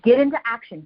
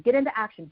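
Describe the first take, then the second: First: Louder, punchy call to action; louder push. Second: Said in the usual way. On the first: Real, not acted. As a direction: push the word get hard, louder. Coach urging listeners to act.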